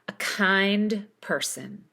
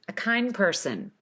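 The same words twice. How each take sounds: First: The D is released with a pause after it. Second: The D is left out completely. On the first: "Put spaces between each of these words and pronounce the duh" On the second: "So here's no D"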